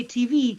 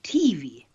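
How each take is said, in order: First: Said in the usual way. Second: T V with the stress moved onto the T; friend's odd stress. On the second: Retold or imitated. Host teasing a childhood friend's pronunciation, imitated odd stress. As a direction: lean on T, let V drop in T V. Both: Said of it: "he pronounced it T V".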